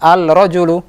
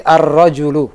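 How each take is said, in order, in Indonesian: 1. Bunyi l yang jelas terdengar sebelum r. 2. Bunyi l menyatu menjadi bunyi r yang dobel. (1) "bukan al-rajulu" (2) "tapi ar-rajulu. Lamnya masuk ke huruf ra"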